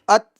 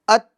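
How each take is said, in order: No difference in how they are said.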